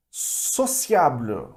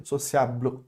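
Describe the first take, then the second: First: Sociable very slow, ending on the L, no final vowel; dying on the L. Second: Sociable, final E silent, fading at the L; dying on the L. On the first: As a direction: Sociable stretched out and fading on the L. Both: Shown as a demonstration. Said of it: "vai morrer tipo no L".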